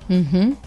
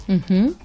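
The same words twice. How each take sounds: The two takes are said the same way.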